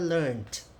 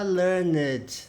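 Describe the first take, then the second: First: The ending is pronounced as a 't' sound. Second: The ending is pronounced as 'ed', not 't'. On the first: The speaker calls it right. "pronunciado na prática como se fosse um T" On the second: The speaker calls it wrong. "Você não fala learned"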